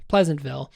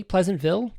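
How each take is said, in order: First: Said in the usual way. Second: Pleasantville with a raised, rising questioning end; unsure, questioning. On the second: Real, not acted. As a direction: try out Pleasantville as a higher-pitched question. Checking a half-remembered town name.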